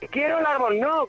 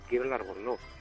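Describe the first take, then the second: First: It is said loudly, almost shouted. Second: It is said very quietly, under the breath. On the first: The speaker is frustrated and demanding. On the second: The speaker is shy about asking.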